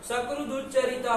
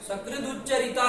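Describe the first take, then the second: No difference in how they are said.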